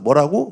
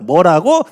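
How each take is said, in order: First: It is said at a normal pitch. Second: It is said at a raised, higher pitch. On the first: The child simply did not catch what was said. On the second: The child is getting worked up after repeated explanations.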